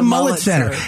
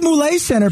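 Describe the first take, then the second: First: The name sounds like the word 'mullet'. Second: The name does not sound like 'mullet'. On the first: This is what fans will call it anyway. The speaker calls it wrong. "but it will be the Mullet Center" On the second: This is the name's proper pronunciation. The speaker calls it right. "It could be the Moulet Center"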